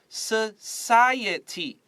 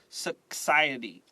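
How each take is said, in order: First: The c is sounded like an s. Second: The c is sounded like a k. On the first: The speaker calls it right. "write an S over the C" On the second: The speaker calls it wrong. "This C is not K. Don't say society"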